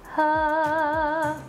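The sound is compressed with little breath. "So you're kind of reducing the air"

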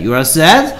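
The voice rises at the end. It sounds like a question. The speaker calls it wrong.

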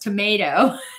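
It is said in an American accent. "in the US you pronounce it as tomato"

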